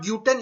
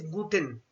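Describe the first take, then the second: First: GLUTEN said as "gyoo-ten", with a y-glide; mispronounced guten. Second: GLUTEN said as "goo-ten", pure long oo; softer GLUTEN as "GOO-ten", no y-glide; correct guten pronunciation. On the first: Teacher showing learners the mistake in guten, GLUTEN as "gyoo-ten". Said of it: "It is not gluten". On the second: Teacher correcting learners' German, GLUTEN as a clean "goo-ten". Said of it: "it is gluten". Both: Shown as a demonstration.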